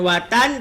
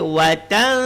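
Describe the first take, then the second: First: The n is pronounced fully and clearly. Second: The n is hidden with a nasal hum. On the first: The speaker calls it wrong. "bukan watan" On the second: The speaker calls it right. "tapi watan ... sembunyi dan dengung"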